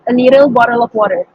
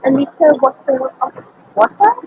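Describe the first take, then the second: First: It is said in an American accent. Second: It is said in a British accent.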